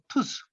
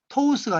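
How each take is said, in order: First: The vowel is a single pure 'u' sound. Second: The vowel glides from 'o' to 'u'. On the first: The speaker calls it right. "우로 발음돼가지고 투스" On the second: The speaker calls it wrong. "이중모음이라 해가지고 토우스가 아니고"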